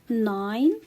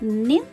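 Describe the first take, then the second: First: The vowel is a long i sound. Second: The vowel is a short i sound. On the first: The speaker calls it right. "I pronounce the letter I as I" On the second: The speaker calls it wrong. "Can I say it nin? No"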